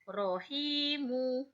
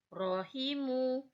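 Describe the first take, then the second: First: The second syllable has a long vowel. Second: The second syllable has a short vowel. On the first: "maka menjadi panjang hi-nya" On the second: "Kalau tidak ada berarti rohimu"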